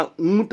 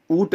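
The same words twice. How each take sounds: First: ऊंट with a nasalised 'oo', oont; correct pronunciation. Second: ऊंट without the nasal, oot; wrong pronunciation. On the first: Teacher correcting the error, ऊंट as nasal oont. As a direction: draw out a nasal vowel in ऊंट. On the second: Teacher showing a common error, ऊंट as oot. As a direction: drop the nasal from the vowel of ऊंट. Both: Shown as a demonstration. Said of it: "ऊंट होता है".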